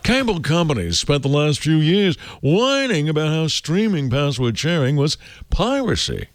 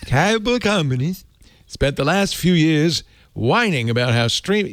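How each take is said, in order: First: It is read in a pompous voice. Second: It is read in his plain voice.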